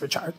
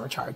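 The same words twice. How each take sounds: First: The name is said the French-Haitian way. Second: The name is said the plain English way. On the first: The speaker calls it right. "I think it's Haitian, so it's Richard" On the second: The speaker calls it wrong. "it's not Richard"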